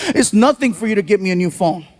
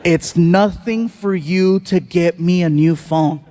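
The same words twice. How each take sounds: First: Brisk retold teen complaint; quick, casual dismissal. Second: Measured, lower disbelieving echo; slow, incredulous repeat. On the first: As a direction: toss the whole line off quickly. Retold son's quick remark, then repeated. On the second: Retold or imitated. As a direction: spell it out slowly, word by word.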